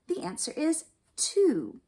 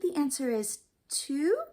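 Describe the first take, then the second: First: The voice falls at the end. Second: The voice rises at the end. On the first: The speaker is confident in the answer. The speaker calls it right. "and down" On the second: The speaker is unsure of the answer. The speaker calls it wrong. "they sound like maybe they don't know the answer"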